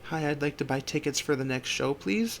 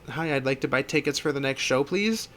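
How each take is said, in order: First: It is said very quietly. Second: It is said a little louder.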